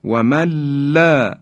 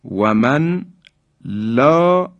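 First: و من لا joined as wamalla; long doubled l in و من لا, no n; nun merged into lam. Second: و من لا as wa man, pause, la; unmerged nun. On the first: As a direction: slide from من into a high لا without n. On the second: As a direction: sound the n in من, then high لا. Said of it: "نون ساکن". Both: Shown as a demonstration.

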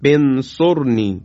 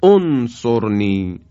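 First: انصرنی said slowly, joined to رب; joined reading. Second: انصرنی said slowly, opening with a clear o sound as "onsorni"; start with damma. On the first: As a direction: run رب انصرنی together. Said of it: "یعنی بگیم". (انصرنی را پیوسته با رب بخوانید) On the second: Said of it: "باید با ضمه بخونیم". (انصرنی را آهسته با ضمه در ابتدا بخوانید) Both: Shown as a demonstration.

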